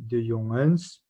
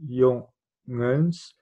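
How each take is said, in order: First: Said in the usual way. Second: "jongens" in two separate beats, jon, gens; split into syllables. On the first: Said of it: "au pluriel". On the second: Shown as a demonstration. Teacher showing the syllable count, "jongens" broken in two. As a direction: break "jongens" apart with a clear gap between syllables. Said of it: "c'est toujours deux syllabes".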